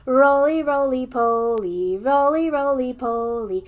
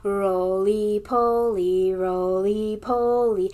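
First: Loud, bouncy chanting. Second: Slow, drawn-out chanting. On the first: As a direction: chant it loudly like a nursery rhyme. Children's song, loud take. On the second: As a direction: chant it slowly like a nursery rhyme. Children's song, slowed. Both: Shown as a demonstration.

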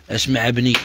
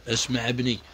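First: Said in the usual way. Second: اسمع ابني dropped quietly, like a soft aside; softer catchphrase. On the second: Real, not acted.

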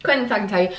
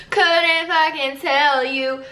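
First: Said in the usual way. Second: Stretched slow and a bit higher; slow drawn-out repeat. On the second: Pretend. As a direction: drag each word out.

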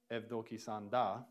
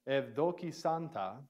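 First: Evdoki sanda with a d sound in sanda; modern Greek pronunciation. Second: Evdoki santa with a clear t in santa; older Greek reading. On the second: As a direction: say santa with a t, not a d. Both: Shown as a demonstration. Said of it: "actually in modern Greek it'd be".

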